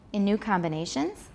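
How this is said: Pitch is low, then rises steeply at the end. It asks a yes-no question. The speaker calls it wrong. "It's just a question in that case"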